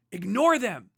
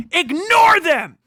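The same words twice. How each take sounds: First: Said in the usual way. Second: Loud, slow shout of ignore them; furious yelled command. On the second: Real, not acted. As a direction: bark the order at the crowd. Ranting command, peaks.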